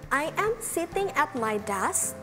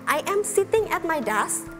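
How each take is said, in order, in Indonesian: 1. Kalimat ini dibacakan dengan kecepatan lebih lambat. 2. Kalimat ini dibacakan dengan kecepatan normal.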